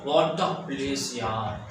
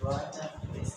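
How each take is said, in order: First: It sounds admiring and pleased. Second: It sounds disgusted and displeased.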